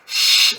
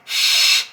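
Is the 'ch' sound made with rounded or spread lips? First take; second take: spread; spread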